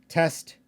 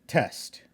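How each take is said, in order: No difference in how they are said.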